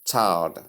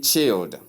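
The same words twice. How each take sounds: First: Put-on "child" with AI diphthong and sounded L; correct pronunciation. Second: Put-on "child" with a short I, like chilled; mispronunciation demo. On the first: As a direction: model "child" clearly as chy-ld. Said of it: "The simple pronunciation". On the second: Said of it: "Common error". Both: Shown as a demonstration.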